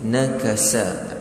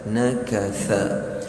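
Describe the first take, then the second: First: The middle consonant is a plain 's' sound. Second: The middle consonant is a soft 'th' sound. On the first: The speaker calls it wrong. "Biasa orang tentukan dengan sin" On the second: The speaker calls it right. "hujung lidah kita bertemu dengan hujung gigi hadapan kita"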